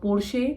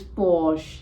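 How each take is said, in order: First: The R and final E are sounded. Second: The R and final E are silent. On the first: "in many countries this brand is pronounced as" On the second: "R and E needs to be silent"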